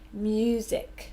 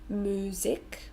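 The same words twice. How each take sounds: First: There is a y sound after the m. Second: There is no y sound after the m. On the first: The speaker calls it right. "we say music with a Y" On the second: The speaker calls it wrong. "we don't say music"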